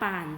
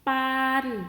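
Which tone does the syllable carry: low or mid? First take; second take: low; mid. First: The syllable is said on a low tone. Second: The syllable is said on a level mid tone.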